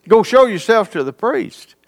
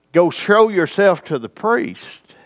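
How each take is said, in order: First: "Go show yourself to the priest" lifted higher, ending on a questioning rise; wondering repeat. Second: Said in the usual way. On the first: Shown as a demonstration. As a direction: repeat the command as if puzzling over it. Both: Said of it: "Is that strange?".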